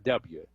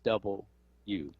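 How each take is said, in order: First: The letter name is said in a shortened form. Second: The letter name is said in full, double U. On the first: The speaker calls it wrong. "So it's not W" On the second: The speaker calls it right. "it's double U"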